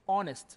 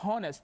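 First: The word begins with a vowel, h silent. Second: The word begins with an audible h sound. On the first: The speaker calls it right. "starting from the letter O here. So H is silent letter" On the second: The speaker calls it wrong. "Don't say honest. This is wrong"

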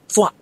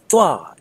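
First: The syllable is cut off short and abruptly. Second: The syllable is said with a raised, high voice. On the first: The speaker calls it wrong. "as if somebody is cutting you off" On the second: The speaker calls it right. "as if you're trying to get somebody's attention"

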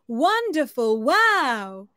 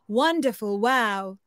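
First: It is said at a high pitch. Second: It is said at a middle pitch.

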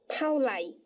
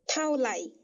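Both takes have the same delivery.

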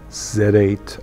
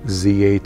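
First: Z is said the British and Canadian way, zed. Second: Z is said the American way, zee.

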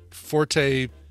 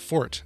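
First: The word is said as two syllables. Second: The word is said as one syllable. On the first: This is a later, secondary pronunciation. "has evolved into a secondary pronunciation" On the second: This is the original pronunciation. "the original pronunciation is just Fort"

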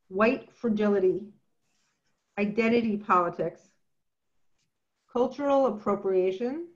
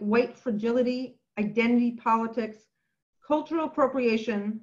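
First: The words are read slowly. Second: The words are read fast.

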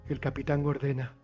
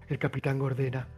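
No difference in how they are said.

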